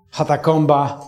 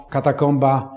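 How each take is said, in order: First: "hatakomba", starting with a breathy h instead of k; mispronounced word. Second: Said in the usual way. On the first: Retold or imitated. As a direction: botch "katakomba" as "hatakomba". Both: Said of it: "śmiesznie polski polityk przekręcał".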